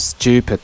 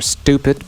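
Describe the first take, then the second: First: The t in it sounds like ch. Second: The t in it is a plain t.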